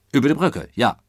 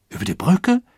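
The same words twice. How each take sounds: First: Firm, falling confirmation; confirming answer. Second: Loud, high rising echo; echoing question. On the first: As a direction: answer the question with a settled fall. Engine driver confirms the echoed question. (bestätigend, mit fallendem Ton) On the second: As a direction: repeat it as an astonished question. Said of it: "echote ein Passagier". (erstaunt fragend wiederholen) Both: A narrator's reading.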